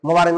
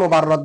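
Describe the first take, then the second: First: The last syllable has an 'i' vowel. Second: The last syllable has an 'a' vowel. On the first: The speaker calls it right. "কিন্তু আসল নাম হলো মুবাররিদ" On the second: The speaker calls it wrong. "এমনি সবাই মুবাররদ বলে"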